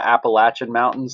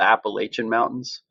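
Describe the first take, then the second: First: Appalachian is said with the local pronunciation. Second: Appalachian is said with an outsider's pronunciation. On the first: This is how people from the region say it. The speaker calls it right. "I take a lot of pride in coming from the Appalachian Mountains" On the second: This is how people from elsewhere say it. The speaker calls it wrong. "not the Appalachian Mountains"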